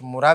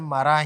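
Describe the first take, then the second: First: The first vowel is a rounded 'u' sound. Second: The first vowel is an open 'a' sound. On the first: The speaker calls it wrong. "कुछ मुरा भी पढ़ते हैं" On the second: The speaker calls it right. "लेकिन असल में मरा ही है"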